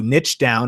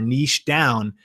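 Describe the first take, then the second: First: "niche" said like "nitch" with a ch sound; "niche" with the American itch vowel and ch ending. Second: "niche" said like "neesh" with a long ee and sh. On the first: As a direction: say "niche" to rhyme with pitch. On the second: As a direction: say "niche" to rhyme with quiche. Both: Shown as a demonstration. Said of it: "or niche down".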